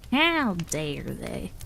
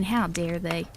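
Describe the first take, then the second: First: "How dare they?" dragged out very slowly, rising at the end; milk the mock indignation, drawing each word out slowly; hammed-up pretend offense, very slow; mock outrage. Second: Said in the usual way. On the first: Shown as a demonstration.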